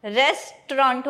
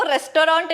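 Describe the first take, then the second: First: रेस्टोरेंट in two syllables, RES-traunt; correct pronunciation. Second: रेस्टोरेंट in three syllables, res-to-raunt; wrong pronunciation. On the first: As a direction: say रेस्टोरेंट with 'tr' run together. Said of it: "वो रेस्टोरेंट नहीं होता". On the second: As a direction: say रेस्टोरेंट with a full 'to'. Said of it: "अब वो रेस्टोरेंट नहीं होता". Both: Shown as a demonstration.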